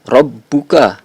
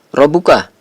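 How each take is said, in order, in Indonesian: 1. Bunyi b dibaca dobel dan ditahan lebih lama. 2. Bunyi b dibaca tunggal dan pendek. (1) "huruf ba itu dibaca double" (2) "bukan dibaca"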